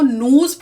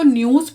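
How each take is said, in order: First: The word is said in an American accent. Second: The word is said in a British accent. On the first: "American English में इसी word को न्यूज pronounce करते हैं" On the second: "British English में तो न्यूज pronounce करते हैं"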